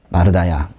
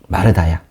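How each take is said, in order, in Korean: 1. 이름을 부드럽게, 안타까워하는 말투로 부릅니다. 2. 이름을 부드럽게, 안타까워하는 말투로 부릅니다.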